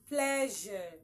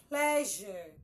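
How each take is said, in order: No difference in how they are said.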